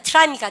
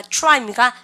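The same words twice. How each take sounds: First: "try" said as teu-ra-i; Koreanized TR. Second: "try" said as choo-rai; fuse the start of "try" into a choo-r sound; English TR sound. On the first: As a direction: give "try" a separate Korean "teu" syllable. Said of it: "T하고 R이 있으면". ("try"를 '트라이'로 발음) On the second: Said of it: "티알은 추추추". ("try"를 '추라이'처럼 발음) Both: Shown as a demonstration.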